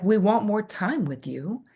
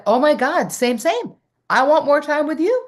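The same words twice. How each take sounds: First: Said in the usual way. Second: High, loud, gushing delight; squealing excited reply. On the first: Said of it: "people were like". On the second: Retold or imitated. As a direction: burst out with eager joy. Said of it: "I was like".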